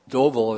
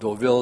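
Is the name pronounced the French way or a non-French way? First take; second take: non-French; French. First: The name is pronounced a non-French way. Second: The name is pronounced the French way. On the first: The speaker calls it wrong. "Deauville is saying it wrong" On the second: The speaker calls it right. "is the French way of saying it"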